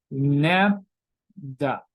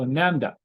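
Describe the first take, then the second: First: "lambda" very slow and low, broken between the syllables. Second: Said in the usual way. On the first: Shown as a demonstration. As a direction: sound out "lambda" in two separate beats. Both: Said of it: "this is pronounced like a lambda".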